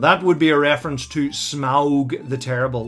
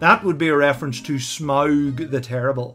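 First: Smaug is said carefully, out of the accent. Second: Smaug is said naturally in the Northern Irish accent. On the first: The speaker calls it wrong. "the way James Nesbitt pronounces it ... which is completely out of his accent" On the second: The speaker calls it right. "It should be"

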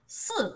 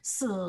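First: The syllable carries the fourth tone. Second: The syllable carries the third tone. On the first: It means four. "And this is the fourth tone" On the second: It means death. "This is the third tone"

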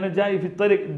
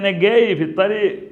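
First: The word for coming begins with a J sound. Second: The word for coming begins with a G sound. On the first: "ജാഇ ഫി ത്വരീഖ് എന്ന് പറഞ്ഞാൽ മതി" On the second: "Egyptian സ്ലാങ്ങിൽ പറയുകയാണെങ്കിൽ അതിനെ ഗേയി എന്ന് പറയും"

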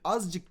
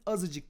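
First: No vowel is heard between z and c. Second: A vowel is heard between z and c. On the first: The speaker calls it wrong. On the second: The speaker calls it right.

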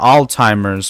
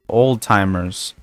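First: The first word sounds like 'all'. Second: The first word sounds like 'old'. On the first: The speaker calls it wrong. "Not all timers" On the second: The speaker calls it right. "That's the correct pronunciation of that shit"

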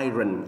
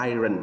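No difference in how they are said.

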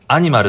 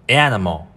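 First: Said with plain Japanese katakana syllables. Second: Said with an open first vowel and dark ending. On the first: "アニマルって言うじゃん、普通" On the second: "ネイティブっぽいですよ"

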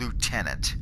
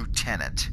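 First: It is said with the US pronunciation. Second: It is said with the US pronunciation.

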